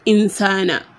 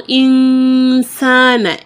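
First: The n sound is short without nasal prolongation. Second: The n sound is prolonged with nasal resonance. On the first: The speaker calls it wrong. "and not just insana" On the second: The speaker calls it right. "The rule is gunna. So insana"

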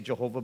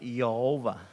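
First: The name is said the usual English way. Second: The name is said the Hebrew way. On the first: The speaker calls it wrong. "which we say Jehovah, but it's really not" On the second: The speaker calls it right. "They pronounce it Yehovah"

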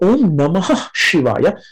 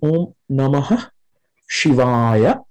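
First: The words are linked, with the final sound joined. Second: Each word is pronounced separately, without linking. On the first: "if you say it together, kind of in a liaison format" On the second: "if you say it separately"

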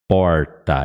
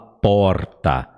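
First: The R is said with the tongue curled back. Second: The R is said plainly, without curling. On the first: "você vai ver que sua língua dá uma enrolada" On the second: "ela não fala porta, né, com esse R"

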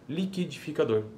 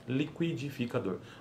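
First: The k sound has no w glide after it. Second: The k sound is followed by a w glide. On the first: "Que aí já não é uma consoante complexa" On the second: "Isso é uma consoante complexa"

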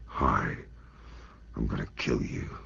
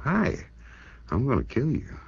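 First: It is said in a frightened way. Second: It is said in a happy way.

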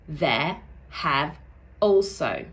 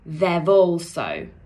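First: 'Have' is said in full as a separate word. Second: 'Have' is reduced and linked into 'also'.

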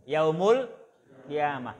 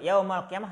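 First: The first word ends with a 'u' vowel. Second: The first word ends with an 'a' vowel. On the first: The word is read as the subject of the sentence. The speaker calls it right. "Yang betul apa? Yaumu" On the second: The word is read as an object of a verb. The speaker calls it wrong. "yaumal qiyamah itu salah"

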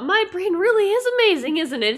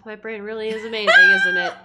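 First: The line sounds sincere and genuine. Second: The line sounds sarcastic and mocking. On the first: The speaker truly means it. The speaker calls it right. "but I think he really means it" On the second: The speaker does not really believe it. The speaker calls it wrong. "I said it sarcastically"

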